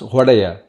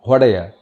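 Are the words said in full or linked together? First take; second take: linked; linked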